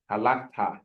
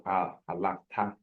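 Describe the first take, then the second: First: Halakta with the stress on LAK; ha-LAK-ta, middle syllable stressed; stress on the second syllable. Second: Halakta with the stress moved off LAK; misplaced stress. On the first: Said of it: "accent, usually it's in the second syllable". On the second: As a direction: halakta stressed away from its middle syllable. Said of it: "instead of". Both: Shown as a demonstration.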